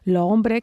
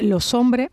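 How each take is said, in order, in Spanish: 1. La s se pierde y la vocal anterior se abre. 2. La s se une directamente a la vocal siguiente. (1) "apertura vocálica, que quitemos la S y esa S abra la vocal anterior" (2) "una especie de unión, ¿no? Eso que llamaban los franceses la liaison"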